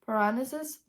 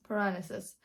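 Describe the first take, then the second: First: "Parnassus?" asked with a rising tune; unsure, try "Parnassus?" as a question; "Parnassus?" tentatively rising at the end; checking the name. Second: "Parnassus." said low and quiet with a falling tune; "Parnassus." quietly falling, decided; settling the name. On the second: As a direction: confirm it to yourself: "Parnassus.". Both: Real, not acted.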